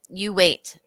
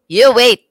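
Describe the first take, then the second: First: It is said lightly, without force. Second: It is said forcefully, like his mom.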